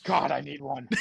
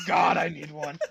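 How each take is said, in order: First: Said in the usual way. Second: Loud, laughing outburst; laughing shout. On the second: Real, not acted. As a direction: blurt it out while laughing.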